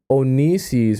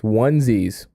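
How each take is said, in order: First: "Onisis" said as oh-NEE-sees; mistaken pronunciation. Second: "onesies" said as WUN-zeez; corrected pronunciation. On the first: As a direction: sound out "Onisis" in three syllables, oh-nee-sees. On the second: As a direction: say "onesies" in two syllables, starting like "one". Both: Shown as a demonstration. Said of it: "I said Onisis last time".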